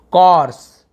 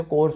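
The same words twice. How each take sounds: First: कॉर्स with an open 'aw', as 'kawrs'; कॉर्स said as KAWRS, loud and clear; open aw sound. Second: कोर्स with a closed 'o', as 'kors'; कोर्स said softly as KORS; everyday o sound. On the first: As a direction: open the vowel of कॉर्स and say it louder. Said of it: "कॉर्स ऐसे बोलते हैं". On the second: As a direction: round the vowel of कोर्स to a long o. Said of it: "हम तो इसे कोर्स पढ़ते हैं". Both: Shown as a demonstration.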